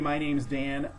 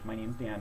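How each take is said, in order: First: The voice is lively and full of excitement. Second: The voice is flat with little energy. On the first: The visitor seems friendly and memorable. The speaker calls it right. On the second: The visitor seems like just another salesperson. The speaker calls it wrong.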